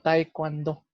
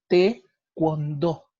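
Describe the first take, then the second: First: The first syllable has the two vowels a-e. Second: The first syllable has the single vowel e. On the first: The speaker calls it wrong. "la mayoría lo lee como taekwondo" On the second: The speaker calls it right. "En realidad se dice taekwondo"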